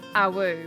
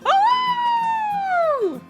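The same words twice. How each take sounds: First: The howl is said weakly, with little energy. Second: The howl is said loudly, with lots of energy.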